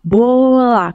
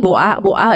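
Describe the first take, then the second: First: Put-on teaching a toddler to say Bola properly; correct pronunciation. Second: Boa, boa with the l dropped, imitating a toddler; Boa, boa copied from a toddler in baby talk; baby talk mispronunciation. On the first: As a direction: model the correct Bola for the child. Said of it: "kita harus ngomong". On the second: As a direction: echo the child's Boa, boa. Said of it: "jangan kita ikutin". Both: Shown as a demonstration.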